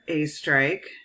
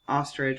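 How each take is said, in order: First: The name begins with an 'ay' sound. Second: The name begins with an 'ah' sound. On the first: The speaker calls it right. "it's pronounced as if it starts with a hard A" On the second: The speaker calls it wrong. "most people think that my name is pronounced ostrich"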